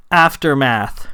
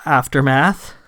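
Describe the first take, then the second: First: "Aftermath" stated with a final fall; word given to repeat. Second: "Aftermath" with a rise at the end; questioning repeat. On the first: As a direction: present "Aftermath" as a prompt, pitch dropping. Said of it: "Rahl said". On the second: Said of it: "Sam repeated". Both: A narrator's reading.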